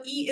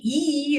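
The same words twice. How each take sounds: First: Short "e" vowel, ee sound. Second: Long, held "e", ee sound; long vowel. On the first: Teacher showing Sanskrit vowels, short "e". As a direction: say "e" short, as a brief ee. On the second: Teacher showing Sanskrit vowels, long "e". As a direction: stretch "e" into a long ee. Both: Shown as a demonstration. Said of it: "e is the long version".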